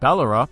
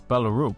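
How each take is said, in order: First: It is said like an Australian place name. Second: It is said with a Danish-style ending vowel. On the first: "it sounds like a small town in rural Australia" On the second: "But I believe it's Ballaroop"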